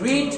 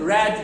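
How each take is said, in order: First: The vowel is long, like in 'reed'. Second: The vowel is short, like in 'red'. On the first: The action happens now or habitually. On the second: The action happened in the past.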